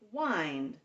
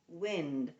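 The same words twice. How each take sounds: First: The vowel is a long 'eye' sound. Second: The vowel is a short 'ih' sound. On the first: It means to turn or coil something. "Please wind up the string" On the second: It means moving air. "a warm wind that blew through the trees"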